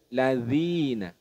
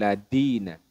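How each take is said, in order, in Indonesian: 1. Konsonan setelah 'la' adalah bunyi th. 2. Konsonan setelah 'la' adalah bunyi d. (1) "Harusnya dal bukan dal" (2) "bukan ladina, ladina. Itu kurang tepat"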